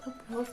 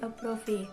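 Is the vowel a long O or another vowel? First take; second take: long O; another vowel. First: The vowel is said as a long O. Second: The vowel is not said as a long O. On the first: The speaker calls it right. "dibaca approve" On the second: The speaker calls it wrong. "bukan dibaca approve"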